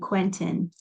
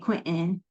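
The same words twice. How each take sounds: First: It is said with careful, formal trained diction. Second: It is said with a rural Midwestern accent. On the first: "speak like the opera singer I was trained to" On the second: "I'm from Southern Iowa. So if I was getting back to my roots, I'd say"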